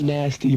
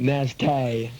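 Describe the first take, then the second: First: The last syllable is said 'tee', the usual way. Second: The last syllable is said 'tay', drawn out. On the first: "Not nasty" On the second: "but nasty. Tay. Gotta get the tay"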